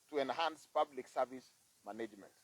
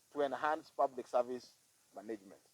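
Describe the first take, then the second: No difference in how they are said.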